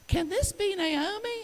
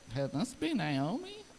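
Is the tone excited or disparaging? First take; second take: excited; disparaging. First: It sounds excited and happy to see her. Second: It sounds disparaging, shocked at how she looks.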